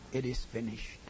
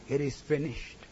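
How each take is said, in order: First: Quiet cry. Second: Said in the usual way. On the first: Acted. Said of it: "He cried".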